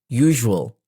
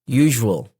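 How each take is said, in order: The two takes are said the same way.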